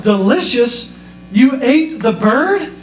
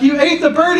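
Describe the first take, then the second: First: Rising disbelief, slowed on the bird; shocked son. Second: Much higher, incredulous yelp of a question; his voice jumps up in disbelief; horrified son. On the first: Son hearing his mom ate the parrot, stunned and slow. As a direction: son can't believe what mom did. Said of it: "He was like". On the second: Son repeating the question to mom, pitched way up in horror. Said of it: "He's like". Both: Retold or imitated.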